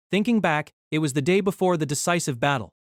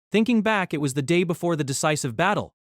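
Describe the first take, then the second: No difference in how they are said.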